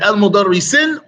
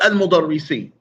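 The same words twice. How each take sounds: First: "al mudarri sin" closed on a clear n; ending with n. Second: "al mudarri si" left open on the vowel; ending without n. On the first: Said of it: "So is it". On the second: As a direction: end "al mudarri si" in -see, no n. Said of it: "or al mudarri si". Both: Shown as a demonstration.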